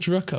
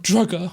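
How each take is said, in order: First: The middle consonant is a voiceless k sound. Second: The middle consonant is a voiced g sound. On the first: The speaker calls it right. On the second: The speaker calls it wrong. "Not Drugger"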